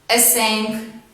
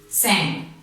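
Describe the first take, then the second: First: The word starts with the letter name 'ess'. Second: The word starts with a plain s sound. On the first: The speaker calls it wrong. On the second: The speaker calls it right.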